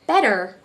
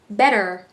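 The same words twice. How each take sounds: First: The middle consonant sounds like a soft D. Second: The same.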